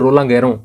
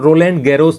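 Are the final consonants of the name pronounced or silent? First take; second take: silent; pronounced. First: The final consonants are silent, French style. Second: The final consonants are pronounced, following the spelling. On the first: "लेकिन उसका उच्चारण है वो रोला गैरो" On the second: "spelling देखेंगे तो आपको रोलैंड गैरोस दिखेगा"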